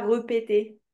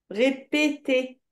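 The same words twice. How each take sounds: First: "répéter" said re-pé-té, schwa first; wrong pronunciation. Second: "Répéter" slowly in three beats, ré-pé-té; correct pronunciation. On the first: Teacher rules out the wrong form, demonstrating it. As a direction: say "répéter" evenly with re- for ré-. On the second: Teacher shows pupil the right form, demonstrating syllable by syllable. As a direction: separate each closed é of "Répéter". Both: Shown as a demonstration. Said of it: "Pas répéter".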